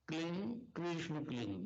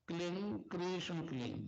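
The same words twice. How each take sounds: No difference in how they are said.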